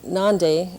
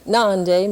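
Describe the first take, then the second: First: The vowel is short. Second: The vowel is long and nasal. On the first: The word means the inside perimeter of a teepee. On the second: The word means heart.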